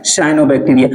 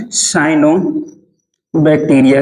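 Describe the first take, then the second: First: Said in the usual way. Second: cyanobacteria stretched, with a pause inside; cyanobacteria at writing-down speed; slow dictation. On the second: Shown as a demonstration. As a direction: dictate cyanobacteria slowly in two parts. Teacher dictating term for notes.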